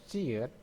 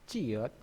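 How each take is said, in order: The two takes are said the same way.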